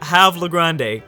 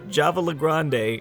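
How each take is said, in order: First: The name begins with an H sound. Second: The name begins with a J sound.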